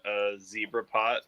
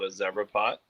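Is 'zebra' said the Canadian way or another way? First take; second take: other way; Canadian. First: Zebra is said the non-Canadian way. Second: Zebra is said the Canadian way.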